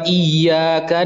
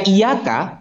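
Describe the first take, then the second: First: The y sound is held long and doubled. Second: The y sound is short and single. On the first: Only to you. The speaker calls it right. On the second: It means the sun. The speaker calls it wrong.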